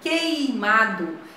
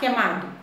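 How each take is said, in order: First: The first vowel is the full diphthong 'ei'. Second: The first vowel is reduced to a plain 'e'. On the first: The speaker calls it right. "Eu tenho que pronunciar esse ditongo" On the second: The speaker calls it wrong. "Não devo nem falar queimado"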